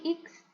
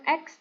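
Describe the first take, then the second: First: The letter is said as 'iks'. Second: The letter is not said as 'iks'. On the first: The speaker calls it right. "tapi X, I K S" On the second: The speaker calls it wrong. "bukan X"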